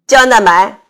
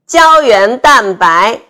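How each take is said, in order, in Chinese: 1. 中间的音节被吞掉了。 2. 每个音节都说得很清楚。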